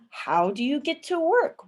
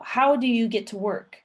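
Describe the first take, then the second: First: The pitch rises at the end of the question. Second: The pitch stays level without rising at the end.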